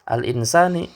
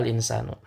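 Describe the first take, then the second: First: The word ends in an i vowel. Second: The word ends in an u vowel. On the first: The noun is in the genitive case. "harokat akhirnya berharokat kasrah" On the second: The noun is in the nominative case. "harokat akhirnya adalah domah"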